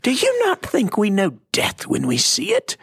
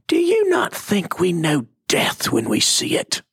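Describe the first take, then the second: First: Hammed-up British cartoon lady, much higher and squeakier; exaggerated British accent, pitched way up. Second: Imitating a cartoon lady's British accent, pitched up; a mock British cartoon lady challenging Jesus; a light British accent from a Bible cartoon. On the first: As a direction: overdo the posh British lady's retort. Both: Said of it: "she had a British accent".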